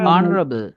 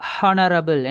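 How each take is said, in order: First: The word begins directly with a vowel sound. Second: The word begins with a pronounced h sound. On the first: The speaker calls it right. "எச் sound வந்து silent" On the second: The speaker calls it wrong. "ஹானரபிள் and எச் sound pronounce பண்றாங்க. Wrong"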